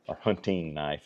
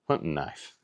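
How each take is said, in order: First: It is said carefully, with every sound pronounced. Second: It is said in a relaxed, clipped, casual way.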